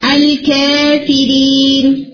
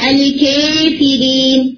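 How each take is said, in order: First: The long a vowel is raised halfway toward e. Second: The long a vowel is raised close to e. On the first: "تقلیل ہے الکافرین" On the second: "اور ایمانہ ہے الکافرین"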